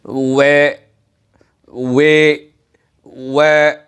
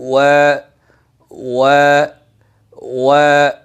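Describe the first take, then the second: First: ওয়ে with the vowel bent toward e, the wrong way; imala mistake. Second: ওয়া said with a clean, open a, lips rounded; correct waw. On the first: Teacher shows viewers the wrong imala-like ওয়ে. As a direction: lean the vowel into an e sound on ওয়ে. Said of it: "এভাবে আদায় করে". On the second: Teacher shows viewers the correct ওয়া. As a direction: keep ওয়া open on a, not e. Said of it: "তাহলে করতে হবে". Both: Shown as a demonstration.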